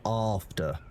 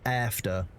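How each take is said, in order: First: It is said in a British accent. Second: It is said in an American accent. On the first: "rather than" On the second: "You say"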